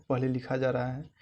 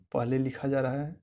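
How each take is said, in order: Both takes have the same delivery.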